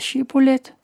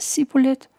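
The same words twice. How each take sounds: First: The word begins with an sh sound. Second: The word begins with a plain s sound. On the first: The speaker is allowed to cross the river. The speaker calls it right. "Hvis han siger Shibbolet, så får han lov til at gå gennem floden" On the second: The speaker is revealed as coming from Efraim. The speaker calls it wrong. "så er han fra Efraim"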